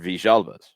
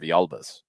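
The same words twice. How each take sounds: First: The name is said with an Argentine Spanish pronunciation. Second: The name is said with a Mexican Spanish pronunciation. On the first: "Villalbas from the Argentina area and Uruguay... They're Villalbas" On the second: "Villalbas in Mexico are Villalbas"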